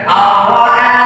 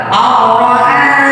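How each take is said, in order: No difference in how they are said.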